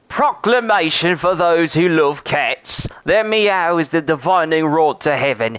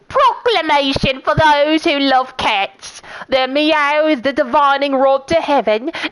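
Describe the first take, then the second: First: It is read in the speaker's normal voice. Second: It is read in a crazy old cat-lady voice.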